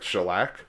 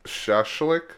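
First: It sounds like 'shellac', with an 'l' sound. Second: It sounds like 'shashlik', with two 'sh' sounds. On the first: The speaker calls it wrong. "I know I pronounced it like shellac" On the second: The speaker calls it right. "but it's actually like shashlik"

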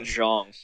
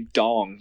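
First: The name begins with a soft 'zh' sound. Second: The name begins with a hard 'd' sound. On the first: The speaker calls it right. "the announcers pronounce it Zhong" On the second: The speaker calls it wrong. "I was going to say Dong"

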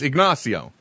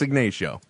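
First: The name is said with Spanish-style pronunciation. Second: The name is said with English-style pronunciation. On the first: This is how a Spanish speaker would read it. The speaker calls it wrong. "If you've spoken any Spanish in your life, you're like, that's Ignacio" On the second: This is how locals actually say it. The speaker calls it right. "No, it's not. It's Ignacio"

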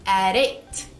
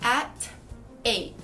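First: The words are linked, with a flapped t. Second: The words are separated, with a clear t. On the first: "Com naturalidade, ... O T do at fica um R"

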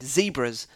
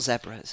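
First: It is said with an American pronunciation. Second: It is said with a British pronunciation. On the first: "I'm pretty sure it's because I heard it on an American television show" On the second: "not zebras"

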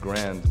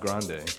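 First: The name ends on a consonant sound. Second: The name ends on a vowel sound. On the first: The speaker calls it right. "which I just found out is pronounced Grand" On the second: The speaker calls it wrong. "not Grande"

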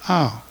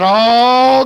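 First: The word is said softly and weakly. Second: The word is said loudly and strongly. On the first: The speaker is reluctant about what the word demands. "why was you so light on that" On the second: The speaker is confident about the word. "good and loud"

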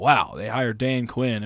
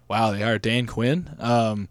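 First: The voice sounds excited and impressed. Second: The voice sounds flat and unimpressed. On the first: The news feels like a big deal. "It's not like I see this headline and I'm like, oh" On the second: The news feels like a letdown. "It was more like"

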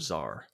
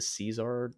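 First: The word is said with one syllable. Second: The word is said with two syllables. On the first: The speaker calls it right. "Or Czar" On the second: The speaker calls it wrong. "Another one of those childhood pronunciations"

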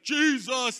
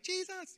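First: It is a strong, manly shout. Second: It is a high, girlish scream.

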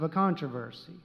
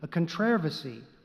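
First: It is stressed the American way. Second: It is stressed the British way.

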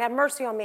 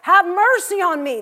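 First: It is said more quietly. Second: It is said more loudly.

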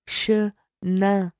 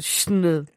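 First: The first vowel is clearly pronounced. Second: The first vowel is dropped or reduced. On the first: The speaker calls it right. "Actually pronounce the vowel" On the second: The speaker calls it wrong. "Don't just get rid of them. Don't just go chenin"

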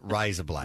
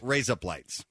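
First: It is said in an Australian accent. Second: It is said without a put-on accent.

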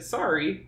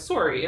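First: The first vowel sounds like an A. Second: The first vowel sounds like an O. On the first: This is the American way of saying it. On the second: This is the Canadian way of saying it.

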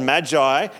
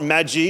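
First: It is pronounced unlike the noodle brand name. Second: It is pronounced like the noodle brand name. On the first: The speaker calls it right. "that's what it's called, Magi" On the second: The speaker calls it wrong. "It's not Magi, it's not, they're not noodles"

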